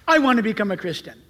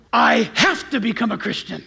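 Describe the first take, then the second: First: Said in the usual way. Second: "have" stretched out and leaned on; stress on have. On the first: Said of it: "I do not want to say". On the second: Shown as a demonstration. Convert states the need after reading Bible, stress on have. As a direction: hit "have" hard, as a necessity.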